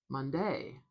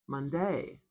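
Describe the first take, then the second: The two takes are said the same way.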